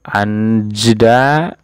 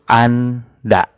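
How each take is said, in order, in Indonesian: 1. Kata anda diucapkan dengan bunyi j. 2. Kata anda diucapkan tanpa bunyi j. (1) "Anjda ini salah" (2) "dibacanya itu anda"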